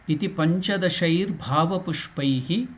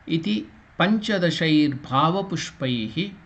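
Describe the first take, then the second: Both takes have the same delivery.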